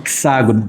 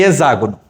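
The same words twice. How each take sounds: First: The x is said as ks, like hexa. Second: The x is said as a z sound. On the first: The speaker calls it right. "A pronúncia correta é hexágono" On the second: The speaker calls it wrong. "E eu toda a vida falei hexágono"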